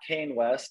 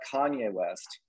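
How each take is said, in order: First: The first name is said as one syllable. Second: The first name is said as two syllables. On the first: The speaker calls it wrong. "not Kane West" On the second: The speaker calls it right. "remember how to pronounce this guy's name"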